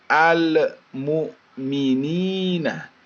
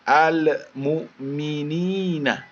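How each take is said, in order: Both takes have the same delivery.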